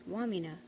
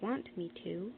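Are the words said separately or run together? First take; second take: run together; separately. First: The three words run together into one. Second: The three words are said separately.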